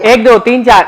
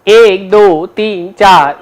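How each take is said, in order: First: The counting is at twice the speed. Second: The counting is at a slower, single pace. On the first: "अब double क्या होगा? डबल देखो" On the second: "एक गुण देखो ये है"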